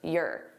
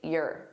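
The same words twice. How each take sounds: First: The word is unstressed and reduced in the throat. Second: The same.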